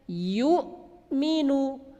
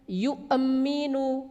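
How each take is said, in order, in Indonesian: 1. Hentian glotis ditahan tanpa gema. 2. Hentian glotis dilepas dengan gema memantul. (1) "tahan suaranya" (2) "Tidak boleh dipantulkan"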